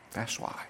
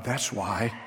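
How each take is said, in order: First: Breathy whispered echo; hushed repeat to let it sink in. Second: Said in the usual way. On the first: Acted. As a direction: whisper it back to the congregation. Sermon climax, repeated answer.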